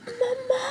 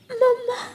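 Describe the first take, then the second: First: Put-on high, softer tearful child's call for mamma; a lost little bird calling out softly, close to tears. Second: Put-on high child's voice, calling out fuller for mamma. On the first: Lost baby bird calls for his mother, soft tearful call. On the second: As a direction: call again, reaching further, still tearful. Lost child calls mother.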